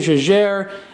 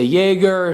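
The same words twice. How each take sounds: First: It is said with a French pronunciation. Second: It is said with an American pronunciation.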